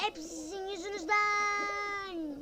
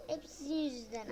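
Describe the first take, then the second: First: Slow, higher whining complaint; mock whiny blame. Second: Said in the usual way. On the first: Real, not acted. Gamer whining at rivals, slow and higher.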